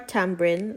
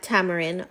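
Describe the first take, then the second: First: It is said in a Jamaican pronunciation. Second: It is said in a standard pronunciation.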